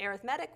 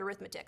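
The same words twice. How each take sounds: First: The stress is on the third syllable. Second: The stress is on the second syllable. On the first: It describes a kind of sequence. "typically we pronounce it arithmetic when we're dealing with sequences" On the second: It names the branch of mathematics. "it looks like the word arithmetic"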